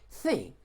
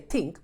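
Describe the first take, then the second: First: The word begins with a soft th sound. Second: The word begins with a hard t sound. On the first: The speaker calls it right. "but you say think" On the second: The speaker calls it wrong. "you don't say think"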